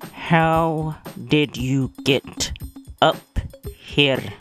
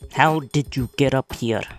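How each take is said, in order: First: It is said slowly, through clenched teeth. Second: It is said at a normal pace.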